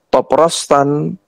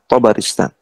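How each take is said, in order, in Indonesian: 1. Tiga suku kata, dimulai dengan vokal o. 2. Empat suku kata, dimulai dengan vokal a. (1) "bisa dibaca Toprostan" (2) "to-nya di fathah, ba-nya di fathah, ro-nya di kasrah"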